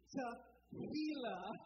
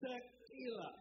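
First: The middle consonant is a soft h sound. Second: The middle consonant is a hard k sound. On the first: The speaker calls it right. "We're talking about Tehillah with an H" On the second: The speaker calls it wrong. "not Tehillah. I'm sure some of y'all sing with tequila"

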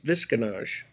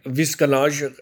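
First: The name is said with one syllable fewer. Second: The name is said with one extra syllable. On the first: This is a simplified version of the name. "the easier version of that is" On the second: This is the original name from the mountain region. "like an even syllable longer"

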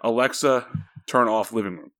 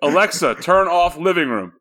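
First: It is said fairly quietly. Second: It is said loudly.

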